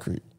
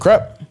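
First: The vowel is long, like in 'creep'. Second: The vowel is short, like in 'step'. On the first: The speaker calls it wrong. "It's not a creep" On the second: The speaker calls it right. "It's a crep"

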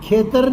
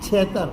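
First: It begins with a velar kh sound. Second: It begins with a palatal chh sound. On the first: This is the standard form. "ખેતર નહીં" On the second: This is the regional dialect form. "ખની જગ્યાએ છ બોલાય"

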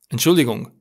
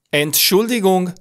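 First: The first syllable is said without special emphasis. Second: The first syllable is strongly emphasized.

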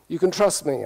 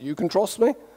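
First: It is spoken with a British English accent. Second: It is spoken with a Norwegian accent. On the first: "when I say you can trust me with a British accent" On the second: "I answered in a Norwegian accent"

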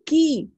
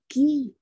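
First: It is said in an angry voice. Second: It is said in a happy voice.

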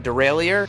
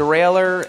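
First: It is pronounced the way people in Britain say it. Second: It is pronounced the other, non-British way. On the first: "people in Britain all seem to call it a derailleur" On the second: "I call it a derailleur, and that's okay"

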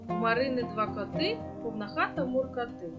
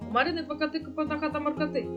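First: The line is read at a fast pace. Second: The line is read at the fastest pace. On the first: "Тепер читаємо швидше" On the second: "І ще швидше"

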